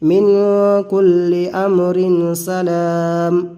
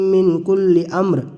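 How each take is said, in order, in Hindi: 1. 'Amrin' 'salam' से मिल जाता है, फिर रुकता है। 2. यह 'amr' के बाद रुकता है, फिर 'salamun' पढ़ता है। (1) "अगर मिलाकर पढ़ रहे हैं तो हमें यहाँ ठहरना पड़ेगा" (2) "यहाँ अगर रुक रहे हैं ... इधर वाला हिस्सा को मिला के पढ़ा जाएगा"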